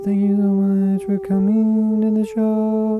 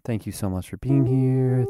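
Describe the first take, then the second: First: High sing-song falsetto thanks. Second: Said in the usual way. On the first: Pretend. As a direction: flip up into a high voice. Host repeats the welcome in falsetto.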